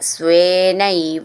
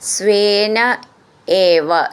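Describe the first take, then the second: First: The two words are merged into one. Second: The two words are said separately.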